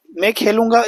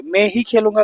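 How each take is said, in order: First: Said in the usual way. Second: ही pressed firmly; stress on ही. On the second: Shown as a demonstration. Teacher showing students the emphasis on ही. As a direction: put weight on the word ही. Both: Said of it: "बल को बढ़ाया गया".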